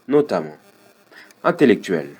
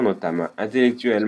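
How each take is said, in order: First: There is a pause after the first word. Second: There is no pause after the first word. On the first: The speaker calls it right. "cette pause-là, elle est importante" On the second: The speaker calls it wrong. "au début, tu as lu"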